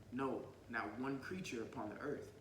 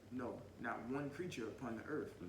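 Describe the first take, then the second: The two takes are said the same way.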